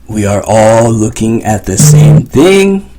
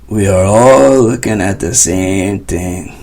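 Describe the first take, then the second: First: "We are" is said as two clear words. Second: "We are" is said as two clear words.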